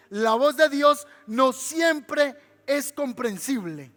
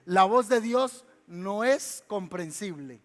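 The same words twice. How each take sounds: First: Slow, louder, every word of "La voz de Dios no siempre es comprensible" weighed; emphatic repeat. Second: Said in the usual way. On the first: Shown as a demonstration. Preacher repeats it to the congregation, slow and emphatic. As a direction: hammer it home slowly. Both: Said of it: "Se lo voy a repetir".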